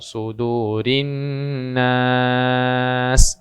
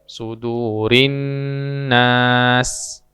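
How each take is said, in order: First: The vowel in nas is held moderately long. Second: The vowel in nas is held briefly. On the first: "boleh dibaca empat" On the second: "boleh dibaca dua"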